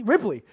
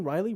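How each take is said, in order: First: "Ripley" said firmly with a falling tune; corrected name. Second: "Riley" said as a questioning guess; trying out "Riley" with a rising tune; wrong name, unsure. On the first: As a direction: land on "Ripley" with certainty. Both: Real, not acted. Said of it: "what's her name?".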